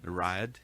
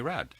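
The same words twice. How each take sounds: First: A brief catch breaks the vowel in two. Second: The vowel runs smoothly with no catch. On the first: The speaker calls it right. "there's sort of like a slight, like in French, you have like a sp- little pause between letters" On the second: The speaker calls it wrong. "everybody wants to call me Rad, and I gave up"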